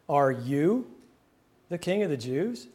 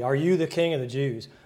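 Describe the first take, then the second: First: The word "you" carries strong emphasis. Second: It is read plainly, with no word stressed. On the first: The questioner doubts this person could be a king. The speaker calls it right. "putting the emphasis in its proper place" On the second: It is a casual, ordinary question. The speaker calls it wrong. "we might read it just plainly, ... almost casually"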